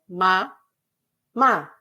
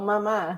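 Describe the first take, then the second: First: The two syllables are separated by a pause. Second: The two syllables run together without a pause. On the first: "Ela falava o má, mas separado" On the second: "não mamá"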